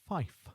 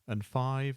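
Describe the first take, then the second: First: The word ends with an 'f' sound. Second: The word ends with a 'v' sound. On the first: This is the form used on the radio in aviation. "five is fife" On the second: This is the everyday English form. "five is fife"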